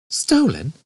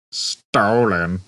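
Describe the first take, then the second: First: Much higher astonished echo; incredulous gasped question; shocked. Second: Flat mocking robot echo; mimicking flatly. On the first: Acted. Ford is shocked. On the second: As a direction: dull sarcastic parroting. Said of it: "mimicked Marvin".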